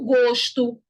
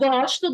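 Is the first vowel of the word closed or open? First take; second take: closed; open. First: The first vowel is a closed o. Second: The first vowel is an open o. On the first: The speaker calls it right. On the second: The speaker calls it wrong.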